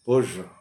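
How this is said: It is said with an English pronunciation. "ഇംഗ്ലീഷിൽ ഇത് പേർഷ്യ, പ ആൻഡ് ഴ"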